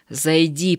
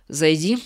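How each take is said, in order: First: Mildly firmer repeat of Зайди; a touch stricter. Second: Said in the usual way. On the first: Acted. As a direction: say Зайди again, a little sterner. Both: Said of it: "повторил Егор чуть строже".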